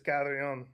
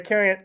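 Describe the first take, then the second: First: The name is said the Spanish way, Carrion. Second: The name is said the English way, like Karen. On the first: This is the technically correct original form. "Technically, the Spanish is Carrion" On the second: This is how the family usually says it. "That's generally how we pronounce it"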